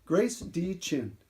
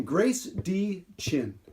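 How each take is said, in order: First: Slow soft repeat. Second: Slow deliberate name. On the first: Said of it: "from Grace D Chin". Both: Shown as a demonstration.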